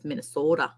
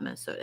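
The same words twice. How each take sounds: First: Minnesota with the O stretched long; Minnesota accent. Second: Said in the usual way. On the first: Shown as a demonstration. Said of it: "That's my accent version". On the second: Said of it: "It's not Minnesota".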